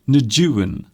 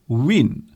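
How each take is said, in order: First: The name is said unlike the word 'win'. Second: The name is said like the word 'win'. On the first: "I don't think you pronounce Nguyen like that" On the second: "you actually pronounce it Win"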